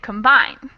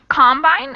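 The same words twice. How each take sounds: First: The stress is on the second syllable. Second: The stress is on the first syllable.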